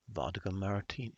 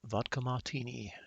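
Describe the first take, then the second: First: Put-on first try at a snobby British accent, American vowels slipping in; rough snobby British, not quite there yet; half-American attempt at a posh British accent; fake British accent. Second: "martini" with the R dropped, as "mah-tini", snobby British; second, more British take on "Vodka martini"; fake British accent. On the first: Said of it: "fake British accent that I can manage".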